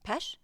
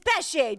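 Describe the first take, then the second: First: The name is said as one short syllable. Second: The name is said with two syllables. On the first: The speaker calls it wrong. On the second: The speaker calls it right. "Do not come into my courtroom without saying Pesce"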